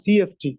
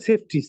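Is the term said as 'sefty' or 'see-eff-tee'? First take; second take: see-eff-tee; sefty. First: It is said as three letters, 'see-eff-tee'. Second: It is said as one blended word, 'sefty'. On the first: The speaker calls it right. "সঠিক উচ্চারণ হলো সিএফটি" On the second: The speaker calls it wrong. "ওখানে বলে সেফটি, সেফটি তো না"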